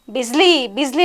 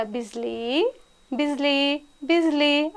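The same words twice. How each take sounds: First: A retold yell for the lost horse; mild mock shout. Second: "Bijli" called much softer and tenderly, starting very quiet; lovingly calling. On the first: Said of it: "అని గట్టిగా అరుస్తున్నాడంట". (యజమాని గుర్రాన్ని గట్టిగా అరిచి పిలవడం, తేలికగా) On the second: Retold or imitated. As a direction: coax the horse gently by name. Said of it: "అని ప్రేమగా పిలిచాడంట". (బాబా "బిజ్లీ" అని మెత్తగా, ప్రేమగా పిలవడం)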